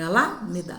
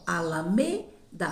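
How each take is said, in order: First: The stress is on the first syllable. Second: The stress is on the third syllable. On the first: The speaker calls it wrong. "não é o A" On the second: The speaker calls it right. "minha sílaba tônica é mais forte da última palavra é o me"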